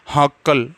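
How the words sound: The word begins with an h sound. This is the regional Marwari form of the word. "Marwar क्षेत्र में सै को है बोलते हैं।"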